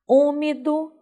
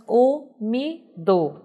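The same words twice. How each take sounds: First: Said in the usual way. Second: "umido" split into three slow, separate syllables; sílaba por sílaba. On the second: Shown as a demonstration. ("umido" silabado, bem devagar, com pausas) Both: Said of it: "também tem três sílabas".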